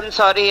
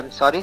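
First: It is said in a harsh, dismissive tone. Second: It is said in a soft, respectful tone. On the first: The apology is not meant. The speaker calls it wrong. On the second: The apology is sincere. The speaker calls it right.

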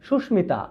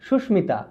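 No difference in how they are said.

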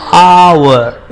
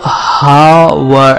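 First: The word begins with a vowel, no h. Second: The word begins with an h sound. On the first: The speaker calls it right. "H का जो letter है वो silent होता है, इसलिए उसको आवर इस तरह से पढ़ेंगे" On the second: The speaker calls it wrong. "दिखने में वो हावर ऐसा दिख रहा है"

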